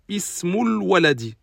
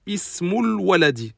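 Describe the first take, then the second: First: The words are linked smoothly, article vowel dropped. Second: The same.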